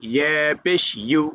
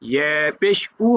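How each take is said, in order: First: The final syllable is a yu sound. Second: The final syllable is a plain u sound. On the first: The speaker calls it right. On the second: The speaker calls it wrong.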